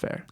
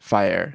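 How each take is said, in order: First: The name rhymes with air. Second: The name rhymes with fire. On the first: The speaker always says it this way. "I think I always said Liz Fair" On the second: Other people say it this way. "I've heard people pronounce it Fire"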